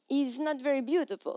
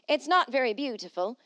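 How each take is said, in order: First: It is said in a French accent. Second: It is said in his plain voice.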